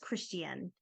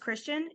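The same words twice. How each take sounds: First: The name is said with a British-sounding pronunciation. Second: The name is said the usual American way. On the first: This is how one particular person says it. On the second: This is how most people say it.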